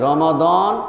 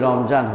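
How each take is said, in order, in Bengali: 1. মাঝের ব্যঞ্জনটি 'দ' ধ্বনি। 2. মাঝের ব্যঞ্জনটি 'জ' ধ্বনি। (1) "মূলত শব্দটা হলো রমাদান" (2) "রমাদান শব্দটি রমজান হলো"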